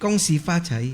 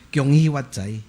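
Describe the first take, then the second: First: The greeting is said in Mandarin. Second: The greeting is said in Hokkien. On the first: "Pag Mandarin" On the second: "Fukien naman"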